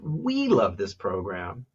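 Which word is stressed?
we. The stress falls on the word "we". It is about who loves the program. "one is about who"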